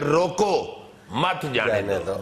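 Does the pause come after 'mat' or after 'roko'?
after roko. There is a pause right after 'roko'. Do not let them go. "इसका ये मतलब है कि ना जाने दो"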